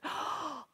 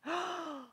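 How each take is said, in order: First: Soft awed oh; a hushed little oh of wonder; surprised oh. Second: Higher, amazed oh after a gasp; awed oh. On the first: Acted. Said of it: "People went". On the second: Shown as a demonstration. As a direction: model wonder for the kids. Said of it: "can you gasp?".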